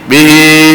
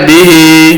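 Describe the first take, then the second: No difference in how they are said.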